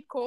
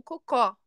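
First: Coco said CO-co, stress on the first syllable, closed final o; right stress coco. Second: Cocó said co-CÓ, stress on the last syllable with an open final o; wrong stress cocó. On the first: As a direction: say coco with the stress at the start, like the fruit. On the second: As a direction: say cocó with the stress at the end, "poop". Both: Shown as a demonstration. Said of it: "ao invés de coco".

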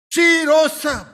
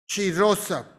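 First: Triumphant proclamation. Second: Hushed echo. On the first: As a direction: announce it with joy. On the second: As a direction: drop low and soft. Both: Shown as a demonstration.

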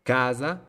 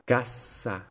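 First: Casa with long first A and buzzed S; single S. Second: Cassa with short A and long hissed S; double S. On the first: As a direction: stretch the A in Casa, no hold on S. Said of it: "con una sola consonante". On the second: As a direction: hold the S in cassa. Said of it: "con doble consonante". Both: Shown as a demonstration.

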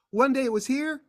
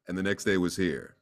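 First: High pitched, lifted well above normal; voice placed high. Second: Low and softer, sunk down; voice dropped low. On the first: Actor demos his voice before it changed, high. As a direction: show the old boyish voice up high. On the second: Actor demos his voice after it changed, low. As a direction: drop into the new deep voice. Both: Shown as a demonstration. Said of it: "It was just kind of".

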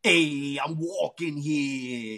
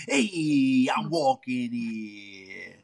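First: Lightly voiced New York tough guy, slow; a mild New York street accent, drawn out; New York impression. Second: Lightly voiced New York accent, very slow; New York impression. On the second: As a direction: stretch "walking" in a mild New York accent. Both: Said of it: "that's my New York impression".

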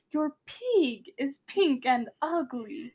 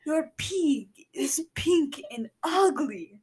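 First: Slow attempt at Russian; Russian accent. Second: Slow, comic Russian accent. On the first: Showing listeners their take, slow amateur Russian accent. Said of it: "how bad mine was". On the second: Co-host's rival take, slow comic Russian accent. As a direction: stretch a mock Russian accent, near laughing. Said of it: "I think [name]'s was better". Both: Shown as a demonstration.

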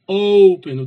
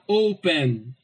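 First: "open" with the O punched very loud; loud OOO in "open", falling away; stress on O. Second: Said in the usual way. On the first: Shown as a demonstration. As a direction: hit the first syllable of "open" hard and long. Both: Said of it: "o O, ele é mais forte".

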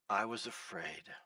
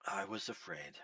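First: Low, soft reading of the verse; quiet quote. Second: Breathy whispered confession. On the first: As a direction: let the words sink down softly. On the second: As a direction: whisper it as a secret fear. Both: Shown as a demonstration. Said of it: "Underline the part of the verse that says".

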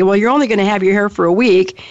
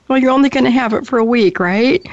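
First: Said in the usual way. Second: Higher and quicker, a nervous hedge; mock-reassuring, hurrying past the orange; slightly different tone. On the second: Daughter to mom after the dye turned orange, lightly imitated sheepish reassurance. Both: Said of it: "but with a slightly different tone".

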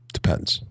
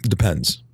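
First: A coy whispered hint; whispering. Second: Said in the usual way. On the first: Shown as a demonstration. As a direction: whisper it teasingly.

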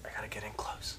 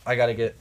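First: Hushed, right up on the microphone; soft intimate near-whisper; close-mic whisper. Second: Said in the usual way. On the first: Pretend. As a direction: drop into a whisper, leaning in.

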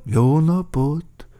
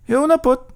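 First: Slow, drawn-out hello, moderately high; leisurely echoing newcomer; second character's greeting. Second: Quick, high, loud hello; brisk high-pitched newcomer; first character's greeting. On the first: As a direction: echo the greeting, stretching it out. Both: A narrator's reading. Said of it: "mondták".

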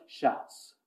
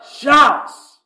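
First: Imitating a congregation's tiny whisper; barely audible, voiceless mimicry; mock timid whisper. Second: Loud, higher, sudden shout; one bold ringing burst; full shout. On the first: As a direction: whisper it as if afraid to be heard. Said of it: "you guys are like". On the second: Shown as a demonstration. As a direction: shout it out to the whole church. Demonstrates shouting against whispered mimicry.

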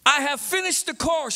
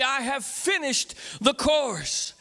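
First: Said in the usual way. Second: Slow, drawn out for all to join; leading the crowd, slowly together; slow call-and-response. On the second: Shown as a demonstration. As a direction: stretch each word so the crowd follows. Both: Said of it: "Say it with me".

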